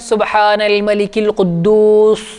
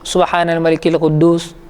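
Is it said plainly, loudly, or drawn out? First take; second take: drawn out; plainly. First: The sounds are stretched out long. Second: It is said at a normal, even volume.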